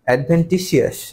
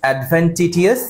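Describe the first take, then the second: First: The later syllables use an s sound. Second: The later syllables use a t sound.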